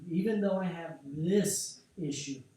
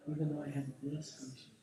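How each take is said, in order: First: Spoken with energy. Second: Said in the usual way. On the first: Shown as a demonstration. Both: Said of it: "speak it with energy".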